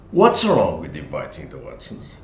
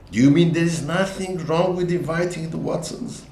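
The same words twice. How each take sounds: First: "What's" stressed and falling, low; defensive falling question; intonation demo. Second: High, rising question stressing "mean"; incredulous challenge, "mean" pushed up. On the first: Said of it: "argument in a couple". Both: Retold or imitated.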